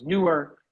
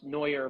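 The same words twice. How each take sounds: First: "newer" said NOO-er; mistaken name pronunciation. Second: "Neuer" said NOY-er; correct name pronunciation. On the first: Retold or imitated. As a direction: say "newer" with an oo vowel. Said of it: "some people thought it was newer". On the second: Shown as a demonstration. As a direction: say "Neuer" with an oy vowel. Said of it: "My name is pronounced Neuer".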